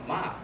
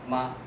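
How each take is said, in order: First: The pitch falls sharply from high. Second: The pitch stays high and flat. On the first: It means to scold. "ma is high falling picture pattern" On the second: It means mother. "with a high level picture pattern"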